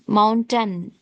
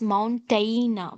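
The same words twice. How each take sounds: First: The last syllable is a reduced 'tun'. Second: The last syllable is a full 'tain'. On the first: The speaker calls it right. "It is ton, mountain" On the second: The speaker calls it wrong. "few people pronounce this as mountain, tain, tain, but it is not tain"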